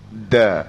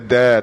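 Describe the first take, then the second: First: The consonant is held firmly at its articulation point. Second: The consonant is released loosely without holding. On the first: The speaker calls it right. "tetapi da" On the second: The speaker calls it wrong. "bukan kata da"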